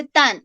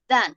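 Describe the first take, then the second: First: "tan" with a hard Spanish T; wrong T sound. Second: "than" starting like the D in dedo; TH as soft D. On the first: Teacher showing students how not to say it, "tan" with a T. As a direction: say "tan" starting on a plain T, not a D. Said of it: "No se dice tan". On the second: Teacher showing students the correct sound, "than" said like "dan". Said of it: "la T y la H suena como la D de dedo". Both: Shown as a demonstration.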